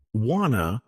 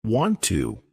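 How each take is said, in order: First: "wanna" as want to with the t dropped; linked, reduced "wanna"; connected speech. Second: Said in the usual way. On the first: Shown as a demonstration. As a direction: run it together as "wanna". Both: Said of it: "some examples of connected speech".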